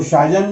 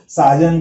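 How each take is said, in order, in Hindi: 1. शब्द 'sh' ध्वनि से शुरू होता है। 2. शब्द 's' ध्वनि से शुरू होता है।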